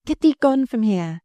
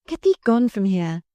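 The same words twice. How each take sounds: First: Shivering. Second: Said in the usual way. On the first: A narrator's reading. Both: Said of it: "she shivered".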